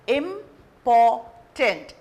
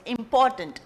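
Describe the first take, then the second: First: Important drawn out slowly, syllable by syllable; syllables spelled out. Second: Said in the usual way. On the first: Shown as a demonstration. Teacher sounding out a word for students, slow and syllable by syllable. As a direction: important stretched so each syllable is counted. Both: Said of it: "again a three syllable words".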